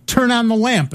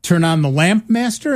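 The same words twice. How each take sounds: First: Higher-pitched spoken command, falling at the end; user giving a command. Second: Lightly voiced computer checking the order; computer asking back. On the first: Retold or imitated. Presenter orders early voice computer, mock command. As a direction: give the computer a firm order. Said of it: "And they would say". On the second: Computer checks command with its user, questioning echo. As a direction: query it back, rising at the end. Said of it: "the computer would say".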